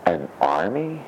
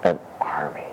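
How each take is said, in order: First: Said in the usual way. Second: Hushed reveal; whisper. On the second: Acted. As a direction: breathe it like a secret. Hushed answer to his question.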